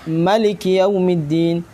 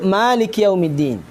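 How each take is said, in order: First: The first vowel of Maliki is short. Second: The first vowel of Maliki is held long. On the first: This is the reading of another tradition. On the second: This is the reading of the taught tradition.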